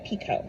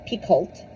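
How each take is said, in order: First: The L and T sounds are silent. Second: The L and T sounds are pronounced. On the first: The speaker calls it right. "it's Jodi Picoult, not Picoult. ... you don't say the L or the T. It's Pico" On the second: The speaker calls it wrong. "not Picoult"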